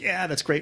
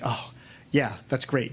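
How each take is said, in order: First: It sounds pleased and sincere. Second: It sounds hurt and sarcastic.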